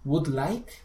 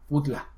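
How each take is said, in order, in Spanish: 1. Cada palabra se dice clara y por separado. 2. Las palabras se pegan en un solo borrón.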